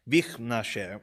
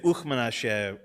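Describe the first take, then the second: First: The phrase begins with a 'v' consonant sound. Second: The phrase begins with an 'oo' vowel sound. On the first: The speaker calls it right. "is more correct. Vichnashe, which is a little bit harder to say" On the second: The speaker calls it wrong. "we've been mispronouncing it for years. We say Uchmanashe, which is grammatically incorrect"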